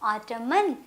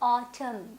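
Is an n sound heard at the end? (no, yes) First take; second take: yes; no. First: The word ends with an added n sound. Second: The word ends in an m sound only. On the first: The speaker calls it wrong. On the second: The speaker calls it right.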